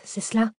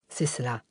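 First: « cela » monte en question, plus aigu; interroger, « c'est cela » en montée; question étonnée. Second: « C'est cela » tombe, plus bas et plus doux; confirmation grave. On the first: (« c'est cela » dit en question montante) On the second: (« C'est cela » affirmé, intonation descendante) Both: Acted. Dialogue, question puis confirmation.

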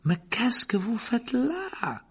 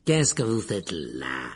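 First: High, slow, unthreatening question; friendly professor. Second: Low, slow, menacing caretaker voice; suspicious. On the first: Professor finds Harry alone, with none of the caretaker's suspicion. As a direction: ask it lightly in a raised, drawn-out voice. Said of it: "d'un ton très différent de celui de Rusard". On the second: Caretaker catches Harry in the corridor, suspiciously. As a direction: drag the question out low with suspicion. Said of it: "demanda Rusard d'un air soupçonneux". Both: A narrator's reading.

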